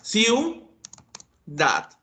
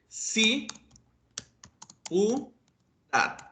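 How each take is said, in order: First: Ciu is said as one syllable. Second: Ci and u are split by a break. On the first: The speaker calls it right. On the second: The speaker calls it wrong.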